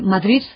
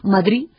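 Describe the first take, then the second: First: The final consonant is a th-like sound. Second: The final consonant is dropped entirely. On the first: "y entonces es una interdental" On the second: "ha desaparecido consonante final"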